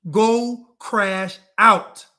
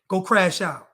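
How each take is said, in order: First: Very slow and loud, every word of "Go crash out" stretched; drawn-out taunt. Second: Said in the usual way. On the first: Acted. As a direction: drag "Go crash out" out slowly to provoke. Taunting the audience.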